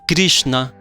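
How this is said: The name is said with a Vrindavan pronunciation.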